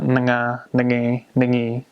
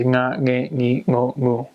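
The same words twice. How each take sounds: First: "nga, nge, ngi" wrongly said as "nuh-ga, nuh-ge, nuh-gi"; NG split in two. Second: "Nga, nge, ngi, ngo, ngu", each starting on the ng of "sing"; one ng sound straight into each vowel of "Nga, nge, ngi, ngo, ngu". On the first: Teacher showing the mistake, "nga, nge, ngi" with N and G separated. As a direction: break the ng of "nga, nge, ngi" into n, short vowel, g. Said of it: "It's not". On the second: Teacher's vowel drill, "Nga, nge, ngi, ngo, ngu" with single-sound ng. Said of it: "So I say". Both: Shown as a demonstration.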